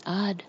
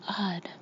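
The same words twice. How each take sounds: First: Clear, voiced single word; plainly audible, gently spoken; clearly spoken. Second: Soft, whispery murmur. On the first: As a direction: say it distinctly at an everyday level. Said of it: "more clearly than before". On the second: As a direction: murmur it faintly, half under the breath. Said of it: "Anna Marie in the first bed murmured". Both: A narrator's reading.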